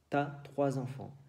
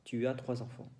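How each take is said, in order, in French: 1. Le pronom est raccourci et lié à 'as'. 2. Le pronom est prononcé en entier devant 'as'. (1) "en francés hablado" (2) "normalmente se dice"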